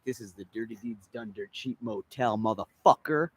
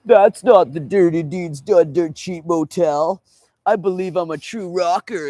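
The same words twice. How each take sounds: First: Said in the usual way. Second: Higher, louder, slow dopey voice; mock know-it-all rocker. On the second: Mocking fans at the wrong motel, dopey voice. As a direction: play the clueless fan who thinks he knows.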